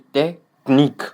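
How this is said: The middle consonants run together quickly. The speaker calls it right. "mais tu dis technique"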